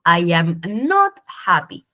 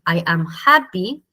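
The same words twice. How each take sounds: First: Slow English model sentence with not leaned on; stress on not. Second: Said in the usual way. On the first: Shown as a demonstration. Teacher to class, slowly stressing not. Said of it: "yo digo". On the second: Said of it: "Y en vez de decir".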